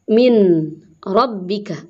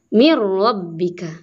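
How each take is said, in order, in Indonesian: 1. Kata pertama berakhir dengan bunyi n. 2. Kata pertama berakhir dengan bunyi r. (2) "tapi dibacanya"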